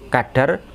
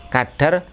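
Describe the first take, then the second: No difference in how they are said.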